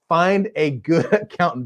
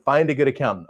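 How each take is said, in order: First: Giggling through the words; can't keep a straight face on the advice; laughing. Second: Said in the usual way. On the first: Real, not acted. Host cracks up while repeating advice, laughing.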